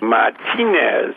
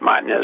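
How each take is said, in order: First: The stress is on the second syllable. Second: The stress is not on the second syllable. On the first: The speaker calls it right. "Accent on the second syllable" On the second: The speaker calls it wrong.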